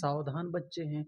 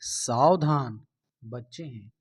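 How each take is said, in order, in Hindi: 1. इसे बिना रुके सीधा पढ़ा जाता है। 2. पहले शब्द के बाद रुका जाता है। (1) "डायरेक्ट पढ़ दिए" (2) "जहां पर कॉमा लगा हुआ है वहां पर रुक के बोलना है"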